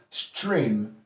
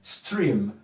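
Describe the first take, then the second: First: The word begins with a sht sound. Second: The word begins with a plain st sound. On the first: "with a Cockney accent is going to say stream" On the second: "The standard pronunciation is stream"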